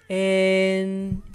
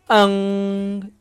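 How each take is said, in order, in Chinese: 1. n前面有清晰的e元音。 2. 只听到单独的n音。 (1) "es en" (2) "en no es como n"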